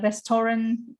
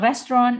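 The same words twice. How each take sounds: First: RESTORAN in three syllables, "res-to-ran"; restoran variant. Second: RESTAURANT in two syllables, "rest-ron"; restaurant variant. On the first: Teacher showing the other accepted pronunciation, three-syllable restoran variant. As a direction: give RESTORAN its full middle "to". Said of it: "ada yang bilang restoran". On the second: Teacher showing one accepted pronunciation, short restaurant variant. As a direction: squeeze RESTAURANT into "res-tron". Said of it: "Ada yang bilang restaurant". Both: Shown as a demonstration.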